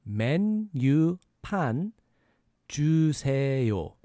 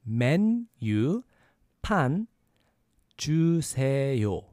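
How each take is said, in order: No difference in how they are said.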